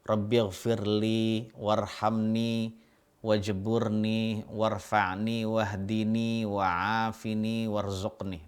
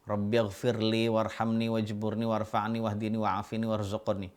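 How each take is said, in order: First: It is recited slowly. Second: It is recited fast.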